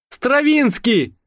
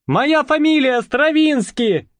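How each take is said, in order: First: Calling out. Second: High, slow call, stress on моя; calling after them. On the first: Gendarme calling after pair. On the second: Calling after fleeing pair. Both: A narrator's reading.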